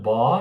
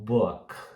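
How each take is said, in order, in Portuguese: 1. A vogal é um som 'aw' aberto. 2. A vogal fica no meio de 'oo' e 'aw'. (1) "Não é um bó" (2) "é um book"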